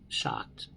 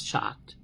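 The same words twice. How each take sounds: First: A stunned whisper of the word shocked. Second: Said in the usual way. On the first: Real, not acted. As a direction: breathe the word out, almost silent. Repeats the word, dropping her voice.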